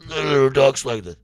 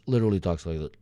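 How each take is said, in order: First: Higher, louder put-on voice; hammed-up impression of the friend; imitating the guy. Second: Said in the usual way. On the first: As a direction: snap back into the friend's voice.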